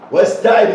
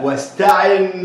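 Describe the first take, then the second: First: The word ends without a final n sound. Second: The word ends with a clear final n sound. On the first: The speaker calls it wrong. "ينفع اقول ايه؟ واستعي واستعي واستعي باثنتين؟ لا" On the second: The speaker calls it right. "ده النون من اصل الكلمه مش تنوين"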